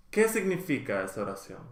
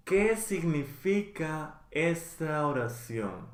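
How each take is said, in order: First: Fast, run together like a native; natural fast speed. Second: Slow, each syllable clear for learners; slow, careful model. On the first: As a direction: rattle it off at real conversational speed. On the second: Teacher slowly modeling the question for learners, careful and clear. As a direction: spell it out slowly so students can follow. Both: Shown as a demonstration. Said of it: "teacher models phrase twice".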